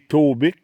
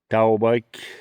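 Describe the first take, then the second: First: The name ends with a short 'bick' sound. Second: The name ends with a 'bike' sound. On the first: An accepted casual way to say it. "On peut dire Taubic" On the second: The brand's true pronunciation. "la vraie prononciation, là, c'est Taubike"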